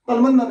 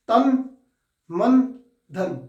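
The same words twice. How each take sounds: First: The three words run together without pauses. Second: A short pause comes after each word. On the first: The speaker calls it wrong. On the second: The speaker calls it right.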